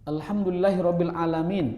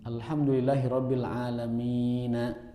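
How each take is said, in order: First: The last word ends on a consonant. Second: The last word ends with a final vowel. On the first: The reading stops at this word. "Tapi kan tidak dibaca karena kita mewakof" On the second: This is the full form of the word. "Itu kalau dibaca alamin, itu alamina"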